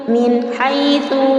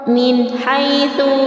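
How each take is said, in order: The two takes are said the same way.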